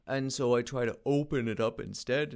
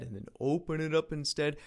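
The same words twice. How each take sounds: First: Said in the usual way. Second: Open throat. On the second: Shown as a demonstration. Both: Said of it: "These are vocal exercises and warm-ups".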